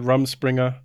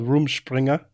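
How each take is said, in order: First: It is pronounced in an American way. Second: It is pronounced in a German-influenced way. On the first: "Over there, they might pronounce it" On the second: "the way I would pronounce it, living in Germany for as long as I have"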